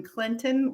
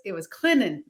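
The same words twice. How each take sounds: First: Clinton with a crisp T sound; T pronounced. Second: Clinton with the T dropped, Clin-nen; local pronunciation. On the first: Host's version of the town name, T clearly said. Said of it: "actually put a T in Clinton". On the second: Guest saying her hometown the local way, T swallowed. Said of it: "that's how it was said growing up". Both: Shown as a demonstration.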